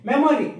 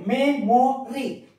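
First: Said in the usual way. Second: MEMORY slowly as "me, mo, ry"; three separate parts. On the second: Shown as a demonstration. Teacher showing pupils a trisyllable word, slow and separated. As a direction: pause between all three syllables of MEMORY. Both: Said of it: "That is also trisyllable".

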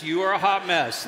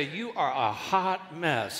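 First: 1 louder quick example. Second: 1 slow playful line. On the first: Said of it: "don't get into detail. Just". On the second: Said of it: "say, "You are a hot mess". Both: Shown as a demonstration.

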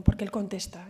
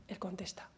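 First: Said in the usual way. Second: Hushed repeat. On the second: Shown as a demonstration. Speaker to an audience about prayer, hushed whisper. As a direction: drop to a soft whisper on "Él contesta".

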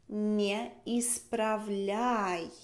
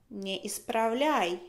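First: Не исправляй drawn out very slowly; very slow model. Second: Said in the usual way. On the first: Shown as a demonstration. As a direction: stretch each syllable of исправляй for the learner. (muy despacio, sílaba por sílaba)

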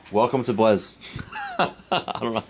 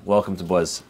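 First: Stifled laugh. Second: Said in the usual way. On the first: Real, not acted. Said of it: "I can't say that with a straight face". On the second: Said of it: "That I can say with a straight face".

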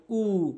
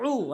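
First: উ as a plain vowel without ayn; mistaken hamza. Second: উ drawn out from the throat as Arabic ayn; correct ayn. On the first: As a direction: say উ with a simple hamza, no throat squeeze. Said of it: "অনেকে ভুল করে বলে". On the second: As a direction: squeeze a long ayn into উ. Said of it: "অনেকে ভুল করে বলে উ". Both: Shown as a demonstration.

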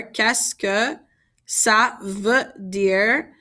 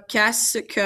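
First: Slow, spaced-out teaching pace; slowed down, rising at the end; a bit slower. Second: Said in the usual way. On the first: Shown as a demonstration. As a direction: say each French word separately for learners. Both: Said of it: "I'm gonna say that a little bit slower".

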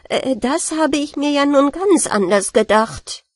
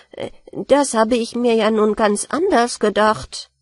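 First: Bigger alarm this time, pitched up; dismayed surprise, higher and louder. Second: Puzzled. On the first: Rat, flooded cellar, louder dismayed cry. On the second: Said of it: "dachte die Ratte verblüfft". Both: Acted.

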